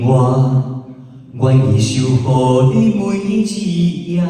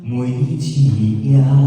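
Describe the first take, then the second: First: It is said strongly and heavily. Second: It is said lightly and softly.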